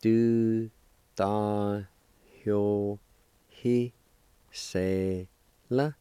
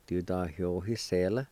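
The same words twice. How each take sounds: First: Each syllable alone with a long pause after it; teacher sounding out a word piece by piece; syllable-by-syllable demonstration. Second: Said in the usual way. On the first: Shown as a demonstration. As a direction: break the word into slow, separate syllables. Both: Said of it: "It's pronounced like this".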